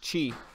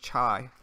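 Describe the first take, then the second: First: The name sounds like the word chi. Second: The name sounds like the tea, chai. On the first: The speaker calls it right. "but it's Chi, like you have good chi" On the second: The speaker calls it wrong. "I always thought it was Chai, like the tea"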